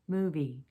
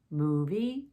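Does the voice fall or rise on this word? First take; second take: fall; rise. First: The pitch steps down on the second syllable. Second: The pitch steps up on the second syllable. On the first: It asks for information. "going down in pitch" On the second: It asks a yes-or-no question. "It's a step change in pitch"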